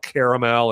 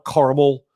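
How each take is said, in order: First: Caramel said in three syllables, KAIR-uh-mel; long caramel. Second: Caramel said as two syllables, KAR-ml; short caramel. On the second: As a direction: clip caramel to KAR-ml, East Coast style. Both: Shown as a demonstration. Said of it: "how do you say it".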